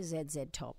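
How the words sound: It is said the Australian way.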